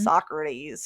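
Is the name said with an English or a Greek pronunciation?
English. The name is said the usual English way. "instead of"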